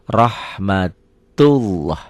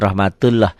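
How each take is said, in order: First: The 'lah' is thick, sounding like 'lo'. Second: The 'lah' is thin, sounding like 'la'. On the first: The speaker calls it right. "dibaca tebal" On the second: The speaker calls it wrong.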